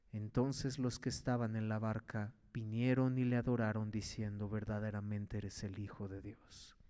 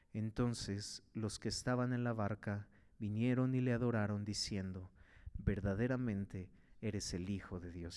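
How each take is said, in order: No difference in how they are said.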